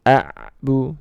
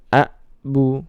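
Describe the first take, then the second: First: The ain sound is cut off abruptly. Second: The ain sound is cut off abruptly.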